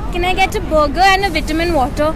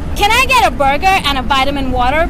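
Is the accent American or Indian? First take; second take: Indian; American. First: It is said with an Indian English accent. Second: It is said with an American English accent. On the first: The order is not understood. "I came from India" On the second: The order is finally understood. "लोग accent style के लिए नहीं मारते, बेचारे उनके पास कोई option ही नहीं"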